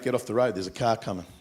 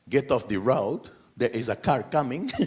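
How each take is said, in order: First: It is said in a plain Australian accent. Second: It is said in a Maltese accent, jumpy inflections. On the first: "That's how we would say it" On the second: "this is like"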